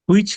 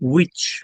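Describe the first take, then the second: First: The word begins with a breathy h sound. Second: The word begins directly with a w sound. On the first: The speaker calls it wrong. "হুইচ না" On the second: The speaker calls it right. "এটা হচ্ছে উইচ"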